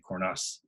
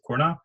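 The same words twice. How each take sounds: First: The final S is pronounced. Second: The final S is silent. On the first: This is how people in the southern region say it. "they say the S" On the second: This is how the spelling reads in standard French. "if you've ever taken French, you would look at that word and probably try to pronounce it Cornas"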